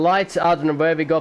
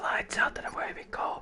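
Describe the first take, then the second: First: It is said loudly and energetically. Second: It is said quietly and calmly. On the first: This is the usual way to commentate. The speaker calls it right. "My style is to yell" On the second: The neighbors will not be disturbed. The speaker calls it wrong. "I can't talk like this"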